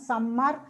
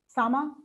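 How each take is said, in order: First: The m is long and doubled. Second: The m is short and single. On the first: The speaker calls it wrong. "we tend to pronounce them summer" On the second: The speaker calls it right. "That's the way they pronounce in English"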